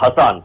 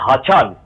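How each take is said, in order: First: The middle consonant sounds like s. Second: The middle consonant sounds like ch. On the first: The speaker calls it wrong. "and not" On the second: The speaker calls it right. "the pronunciation of the name ... is"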